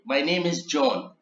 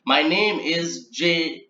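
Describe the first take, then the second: First: Said in the usual way. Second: Slow, halting name read; slow spelled-out start. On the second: Shown as a demonstration. Trainer demonstrating to transcribers, slow and deliberate. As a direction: trainer reading an example slowly. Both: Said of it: "So it should be written as".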